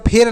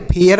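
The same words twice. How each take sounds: First: फेयर said short as one syllable, pʰer; the wrong way the pupil might say फेयर; wrong pronunciation. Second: फेयर said in two beats, pʰe-ər; the right way to say फेयर, like the English fair; correct pronunciation. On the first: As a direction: clip फेयर into a quick single beat. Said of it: "फेयर नहीं पढ़ेंगे". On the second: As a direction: open फेयर into fe then ər. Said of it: "फेयर पढ़ेंगे". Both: Shown as a demonstration.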